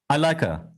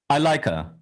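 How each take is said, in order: First: The word 'her' is reduced and linked. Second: The same.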